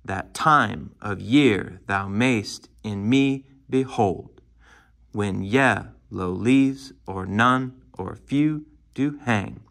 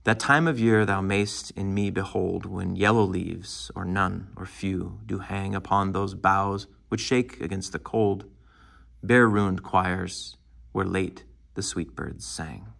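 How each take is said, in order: First: Slow, every second syllable pounded as in "that TIME of YEAR"; singsong iambs, heavy beats on TIME, YEAR, MAYST, ME, HOLD; overemphasized rhythm. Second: Measured sonnet recital, "That time of year" flowing without pounded beats; understated reading, pausing at the commas, "bare ruined choirs" lingered on; natural poetry reading. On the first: Teacher showing how not to read poetry, overemphasized iambic rhythm. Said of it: "That is overemphasizing the rhythm".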